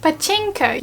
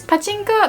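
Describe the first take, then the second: First: "pachinko" with the stress slammed on "chin"; heavy English "paCHINko"; English stress on chinko. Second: "pachinko" with even Japanese pitch, no stress on any syllable; flat native "pachinko". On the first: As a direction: push hard on "chinko" in "pachinko". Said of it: "you put so much stress on the word chinko". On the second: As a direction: blend "pachinko" smoothly, syllables equal. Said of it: "it kinda blends in". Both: Shown as a demonstration.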